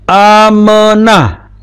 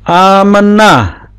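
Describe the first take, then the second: No difference in how they are said.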